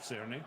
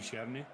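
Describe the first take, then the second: First: The name begins with an 's' sound. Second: The name begins with a 'ch' sound. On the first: "instead of like Cerny" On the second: "I'd assume it would be Cherny"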